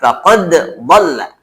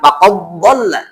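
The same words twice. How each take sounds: First: The d sound is clear, with a slight bounce. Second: The d sound merges into the following consonant. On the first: The speaker calls it right. "itu sidalnya dipantulkan saja. Qadnya dijelaskan saja" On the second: The speaker calls it wrong.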